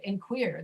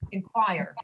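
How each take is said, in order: First: The second syllable sounds like 'queer'. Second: The second syllable sounds like 'choir'. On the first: The speaker calls it wrong. "This one should be pronounced the way you're doing it" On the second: The speaker calls it right.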